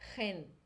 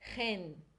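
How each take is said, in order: Both takes have the same delivery.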